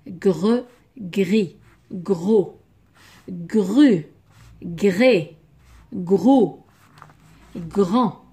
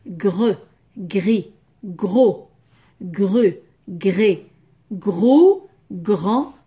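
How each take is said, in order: Both takes have the same delivery.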